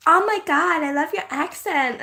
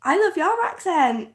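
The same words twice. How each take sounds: First: Put-on high, excited gush over an accent; mock-amazed squeal of admiration; gushing holidaymakers. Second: YOUR pushed high in an admiring comeback; high, eager retort with "your" stressed; gushing reply. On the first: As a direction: imitate a starstruck fan, pitch swooping up. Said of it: "everyone was like". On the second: Retold or imitated. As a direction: throw the compliment back, leaning on "your". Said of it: "And I was like".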